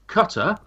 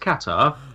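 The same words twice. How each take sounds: First: It is said the American way, like 'cutter'. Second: It is said without the American pronunciation. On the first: "for our American friends" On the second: "it's Qatar"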